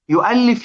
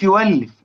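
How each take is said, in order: First: يؤلف said with a clear glottal stop after يـ; with hamza. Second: يولف said with the hamza turned to a smooth w, yuwallif; hamza softened to w. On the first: Teacher giving the standard form before Warsh's, hamza clear. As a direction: give يؤلف its full hamza, yu-'allif. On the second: Teacher showing the Warsh form to students, hamza as w. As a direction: drop the stop and glide straight into w in يولف. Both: Shown as a demonstration. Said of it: "ما هي ديت أثر قراءة ورش".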